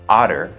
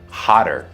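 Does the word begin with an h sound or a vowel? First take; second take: vowel; h sound. First: The word starts with a vowel, no h. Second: The word starts with a clear h sound. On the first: It names a different animal. The speaker calls it wrong. "la H no es muda. Entonces no digas otter" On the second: It means more hot. The speaker calls it right. "Hotter se dice"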